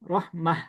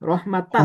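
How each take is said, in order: First: The word ends with a soft h sound. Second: The word ends with a full -tan ending. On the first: The reading stops on the word. "এটাতে যদি অক্ষ করি তখন কি হবে? রহমাহ" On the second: The reading continues without stopping on the word. "যদি ধরেন রহমাতান একটা শব্দ বললাম"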